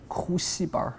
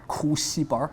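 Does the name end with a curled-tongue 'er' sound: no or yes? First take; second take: yes; yes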